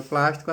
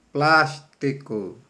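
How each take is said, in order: First: Said in the usual way. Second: "Plástico" very slowly in separate syllables. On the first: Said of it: "se você escreveu plástico". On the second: Shown as a demonstration. Teacher answering the syllable question, "Plástico" slowly syllable by syllable. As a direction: stretch "Plástico" out, syllable after syllable. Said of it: "quatro letras na primeira sílaba".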